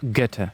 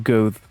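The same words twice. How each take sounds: First: The name is said with a German pronunciation. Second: The name is said with an English-style pronunciation. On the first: The speaker calls it right. "it would be" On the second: The speaker calls it wrong. "the German pronunciation would not be Goethe at all"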